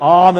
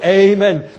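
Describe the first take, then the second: First: The word begins with an open 'ah' vowel. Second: The word begins with an 'ay' diphthong. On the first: The speaker calls it right. "우리가 아멘 할 때" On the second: The speaker calls it wrong. "영어로 에이멘"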